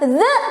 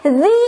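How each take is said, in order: First: The word ends in a short 'uh' vowel. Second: The word ends in a long 'ee' vowel. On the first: The speaker calls it wrong. "bukan the" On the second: The speaker calls it right. "Karena inisialnya huruf vokal"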